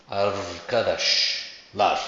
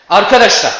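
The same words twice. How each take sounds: First: Said in the usual way. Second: Loud "Arkadaşlar" with the first syllable ar punched; stress on AR, calling out. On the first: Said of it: "kelimesini ne yapacaktır?". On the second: Shown as a demonstration. Teacher calling out "Arkadaşlar" with first-syllable stress. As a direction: call "Arkadaşlar" across a room, hitting ar. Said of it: "İlk heceye kayıyor".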